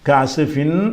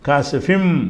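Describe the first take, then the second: First: The final syllable ends with an n sound. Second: The final syllable ends with an m sound. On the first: The speaker calls it wrong. "என்று படிக்காமல்" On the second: The speaker calls it right. "ஃபிம் மட்டும் நிப்பாட்டிக்கிறங்க"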